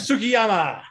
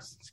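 First: The first u vowel is clearly pronounced. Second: The first u vowel is silent. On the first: The speaker calls it wrong. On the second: The speaker calls it right.

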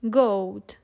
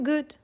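First: The vowel rhymes with load. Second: The vowel is short. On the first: This is the 14th and 15th century pronunciation. "they would rhyme with the word load" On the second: This is the modern pronunciation. "are now even shorter"

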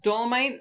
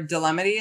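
First: The name ends with a 'mite' sound. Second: The name ends with a 'mity' sound. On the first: The speaker calls it right. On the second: The speaker calls it wrong.

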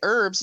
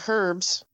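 First: It is said with a silent h, American style. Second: It is said with a pronounced h, British style.

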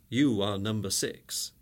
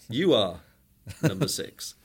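First: It runs on without a pause after "are". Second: There is a pause after "are". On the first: The listener is identified as number six. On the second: Number six is addressed and told he is number one.

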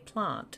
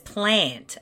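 First: It is said the South Australian way. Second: It is said the other Australian way. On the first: The speaker calls it right. "We say plant, and it sounds normal" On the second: The speaker calls it wrong. "Where everyone else says plant, and it sounds stupid"

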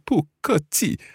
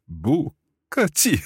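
First: The tones are not rising then two falling. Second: The tones are rising, then falling, then falling. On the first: The speaker calls it wrong. "Actually, no, he doesn't" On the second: The speaker calls it right. "second tone and then two fourth tones"

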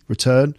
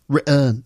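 First: The T is clearly pronounced. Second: The T becomes a glottal stop. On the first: The speaker calls it right. "you will always pronounce the T" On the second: The speaker calls it wrong. "No, it doesn't work"

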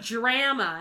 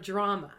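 First: It is said in a Canadian accent. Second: It is said in a non-Canadian accent. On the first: "A Canadian would say like drama" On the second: "instead of drama"

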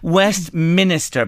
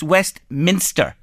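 First: An extra vowel is added before the final syllable. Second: No extra vowel comes before the final syllable. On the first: The speaker calls it wrong. "people say, and the I is wrong, the second I" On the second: The speaker calls it right. "It's Westminster"

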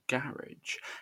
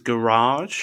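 First: The word is said in a non-American way. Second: The word is said in an American way.

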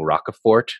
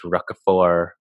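First: The final T is clearly pronounced. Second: The final T is silent. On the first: The speaker calls it wrong. "I kept saying Roquefort" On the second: The speaker calls it right. "there's no hard T"

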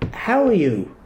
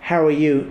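First: It is said with marked inflection and sincere emphasis. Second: It is said quickly and casually, as a brush-off. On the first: The asker genuinely wants to know. The speaker calls it right. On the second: The asker does not really want an answer. The speaker calls it wrong.

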